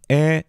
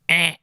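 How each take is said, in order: First: The voice is in a normal, relaxed speaking quality. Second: The voice is harsh and buzzing, like a buzzer. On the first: "you go to a normal voice" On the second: "you make the sound of like a basketball scoreboard buzzer"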